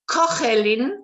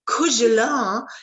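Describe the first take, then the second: First: It is said with a Spanish pronunciation. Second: It is said with a French pronunciation. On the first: "in Spain we would say cogolin" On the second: "The French will say cougelin"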